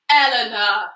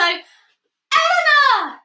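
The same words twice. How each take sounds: First: The name is said in a very low pitch. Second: The name is said in a very high pitch. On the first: "I'm going to say my name in a low voice like this" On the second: "Really high, excited voice"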